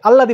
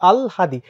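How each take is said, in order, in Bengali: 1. ল দ্বিত্ব হয়, কোনো হ-ধ্বনি নেই। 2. ল-এর পরে হ-ধ্বনি আসে। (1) "এটা কিন্তু ভুল" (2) "আগে ল পরে হ"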